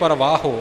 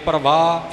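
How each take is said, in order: First: The word ends with a full o sound. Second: The word ends bare, with no final vowel. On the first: "इउं भी ना बने" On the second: "इउं सीधा नहीं बोलना"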